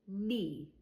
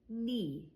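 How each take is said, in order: The two takes are said the same way.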